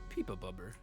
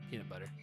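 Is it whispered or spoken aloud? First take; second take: whispered; aloud. First: It is spoken in a whisper. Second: It is spoken in a normal voice.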